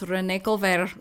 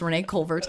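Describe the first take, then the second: First: The name is said with a French-style pronunciation. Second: The name is said with an English-style pronunciation. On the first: This is how the name would sound in French. "It should be pronounced Renee Colvert, or however a French accent would go" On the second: This is how the name is actually pronounced. "but it's not. It's Renee Colvert"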